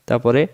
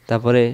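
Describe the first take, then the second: The two takes are said the same way.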